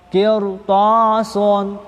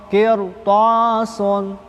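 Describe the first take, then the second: The two takes are said the same way.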